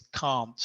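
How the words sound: It is said with a British vowel. "como soy de Inglaterra, la pronunciación que yo digo es can't"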